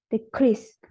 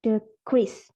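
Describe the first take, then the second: First: "decrease" with a louder CREASE, second syllable; stress on second syllable. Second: "decrease" stressed on DE, the first syllable. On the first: Student presenting stress shows the verb decrease, stressed on the second syllable. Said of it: "if the second syllable is stressed". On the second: Student presenting stress shows the noun decrease, stressed on the first syllable. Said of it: "If the first syllable stressed". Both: Shown as a demonstration.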